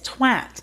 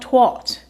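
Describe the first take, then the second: First: The vowel is like the one in 'hat'. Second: The vowel is like the one in 'hot'. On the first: The speaker calls it right. "There's an A there. It's twat" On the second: The speaker calls it wrong. "It's not twat. Unless you're trying to say T W O T"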